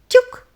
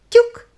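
The two takes are said the same way.

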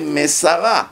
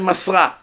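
First: The word is said with three syllables. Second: The word is said with two syllables. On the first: A man handed it over. The speaker calls it right. "You have to say Mesara" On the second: A woman handed it over. The speaker calls it wrong. "If Moshe was a woman, then you say Masra"

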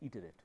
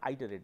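First: The word is said with the standard pronunciation. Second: The word is said with the common Indian pronunciation. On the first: The speaker calls it right. "its pronunciation is iterate" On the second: The speaker calls it wrong. "this pronunciation is not iterate"

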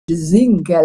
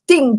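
First: It is said with a French accent. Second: It is said with an Irish accent. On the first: "we say in French" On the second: "like in Irish"

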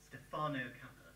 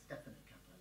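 First: Stefano is stressed on its second-to-last syllable. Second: Stefano is not stressed on its second-to-last syllable. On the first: The speaker calls it wrong. "most people would look at that and go" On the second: The speaker calls it right. "this is an exception word. It's pronounced"

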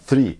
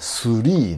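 First: It is said with English-style sounds. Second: It is said with Japanese-style sounds. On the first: The speaker calls it right. "正しくはスリーですよね" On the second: The speaker calls it wrong. "日本人、日本語、英語で言ったらスリーなんですけども"

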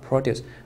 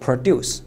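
First: The stress is on the first syllable. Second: The stress is on the second syllable. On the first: It is the noun meaning farm goods. "名词produce" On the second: It is the verb meaning to make. "动词produce"

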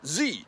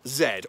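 First: The letter is pronounced 'zee', American style. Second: The letter is pronounced 'zed', British style.

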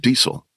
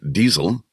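First: It has an Americanized English pronunciation. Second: It has a German pronunciation with a z sound. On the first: "it's been Americanized to Diesel" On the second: "in German with a Z sound"

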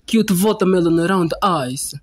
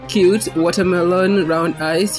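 First: It is said in a mock Russian accent. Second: It is said in a plain, ordinary accent. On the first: It sounds threatening. "like hashtag Russian accent" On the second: It sounds harmless. "instead of saying"

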